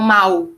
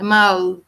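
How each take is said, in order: First: The final L is softened into a W sound. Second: The final L is said with the tongue raised. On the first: This is not how people from Portugal say it. "Eles não falam mal" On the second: This is how people from Portugal say it. "é mal. Então eles viram a língua"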